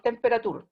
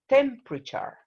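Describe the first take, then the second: First: The stress falls on a later syllable. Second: The stress falls on the first syllable. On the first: The speaker calls it wrong. "It's not temperature" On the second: The speaker calls it right. "The stress is in the first syllable"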